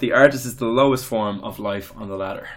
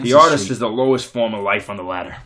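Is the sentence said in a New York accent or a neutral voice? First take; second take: neutral; New York. First: It is said in the speaker's ordinary voice. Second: It is said in a New York accent. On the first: "He didn't do a voice" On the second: "New York, so real New Yorker"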